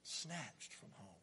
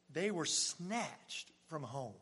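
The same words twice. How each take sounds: First: Soft, slow repeat; whispered echo; hushed echo. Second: Slow, weighted telling; solemn slow emphasis. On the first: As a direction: let it land quietly. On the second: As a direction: lean on every word. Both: Acted.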